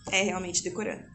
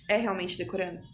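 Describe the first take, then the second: First: É realmente decorando. said as a falling, settled answer; confident answer tune; firm statement. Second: É realmente decorando? asked as a rising question; doubtful question, voice lifted on decorando; puzzled question tune; asking tune. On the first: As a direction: close it down with a firm fall on decorando. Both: Shown as a demonstration.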